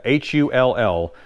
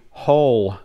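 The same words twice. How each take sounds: First: "H U L L" spelled letter by letter. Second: Said in the usual way. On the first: Shown as a demonstration. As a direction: spell "H U L L" out, one letter at a time. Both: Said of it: "I'm gonna spell some of these out".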